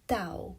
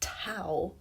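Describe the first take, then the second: First: The first consonant sounds almost like a d. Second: The first consonant is an English-style t. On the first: The speaker calls it right. "that sounds almost like Dao" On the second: The speaker calls it wrong. "not pronounced tau as in English"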